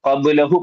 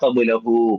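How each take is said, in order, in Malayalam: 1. അവസാന സ്വരം ചെറുതായി നിർത്തുന്നു. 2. അവസാന സ്വരം രണ്ട് എണ്ണം നേരം പിടിക്കുന്നു. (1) "ഖബ്ലഹു പോരാ" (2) "ഖബ്ലഹു രണ്ടക്ഷരമാണ്"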